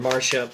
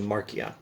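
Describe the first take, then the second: First: The c is pronounced as an sh sound. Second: The c is pronounced as a k sound. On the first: "the normal way to pronounce that in English" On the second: "the Latin C is like an English K"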